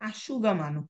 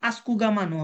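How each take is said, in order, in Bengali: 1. প্রথম স্বরের পরের ব্যঞ্জনটি sh। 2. প্রথম স্বরের পরের ব্যঞ্জনটি sk। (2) "আস্কুগামানো হবে না"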